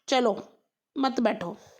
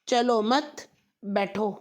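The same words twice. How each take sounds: First: There is a pause right after 'chalo'. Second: There is a pause right after 'mat'. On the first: Let's go, don't sit here. "इसका मतलब हुआ कि चलो यहाँ मत बैठो" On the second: Don't go, sit down. "मतलब यहाँ से मत जाओ बैठ जाओ"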